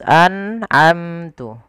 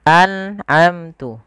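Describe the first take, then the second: Both takes have the same delivery.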